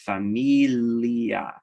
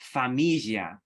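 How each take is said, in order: First: A plain L is followed by a y-glide. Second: A single palatal L sound replaces the L-glide. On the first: "you might just do as like an L with a J glide" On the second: "in spoken Italian, it really is"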